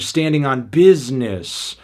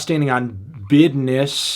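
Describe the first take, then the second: First: Every sound in 'business' is clearly pronounced. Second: 'Business' is clipped and sounds like 'bidness'. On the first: The speaker is not threatening. "he was pronouncing uh, the words he was saying thoroughly" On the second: The speaker is automatically threatening. "you don't fully articulate all your words"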